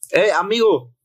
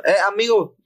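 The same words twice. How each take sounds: First: Mock street call, a bit higher; retold hail from a stranger. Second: "Eh, amigo" sung out higher, dwelling on "amigo"; hamming up the stranger's singsong hail; imitating the stranger's tone. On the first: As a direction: call out "Eh, amigo" higher and lightly drawn. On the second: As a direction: copy his exact calling tone, higher. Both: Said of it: "Así, así con el tono".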